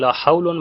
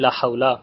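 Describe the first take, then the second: First: The noun ends with the sound 'un'. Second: The noun ends with a short 'a' sound. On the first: "रफा पढ़ सकते हैं" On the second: "पहले को फतहा दें"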